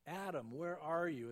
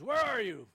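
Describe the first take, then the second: First: Gentle, concerned call; God as a paramedic seeking beaten Adam; caring paramedic. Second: Much louder barked demand, mock cop; God as arresting officer calling Adam; police officer. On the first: Retold or imitated. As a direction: call out like a rescuer finding someone hurt. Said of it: "as a paramedic coming on a scene". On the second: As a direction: shout it as an arrest order. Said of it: "as an arresting police officer".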